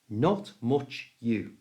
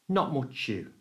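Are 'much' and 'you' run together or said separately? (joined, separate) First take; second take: separate; joined. First: The words are said separately and carefully. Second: The words are joined quickly into muchu.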